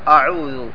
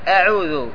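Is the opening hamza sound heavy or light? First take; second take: heavy; light. First: The opening hamza is heavy and thick. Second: The opening hamza is light and thin. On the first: The speaker calls it wrong. "لا تفخمها فتقول أعوذ" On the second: The speaker calls it right. "وإنما قل أعوذ"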